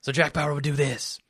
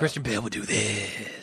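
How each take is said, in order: First: Short whispered agent voice; Jack Bauer voice. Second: Christian Bale Batman voice. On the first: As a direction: clip it off in a terse agent whisper. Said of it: "the only nuance that Christian Bale put is he extended it". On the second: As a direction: stretch the whisper out like Batman. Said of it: "he extended it". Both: Shown as a demonstration.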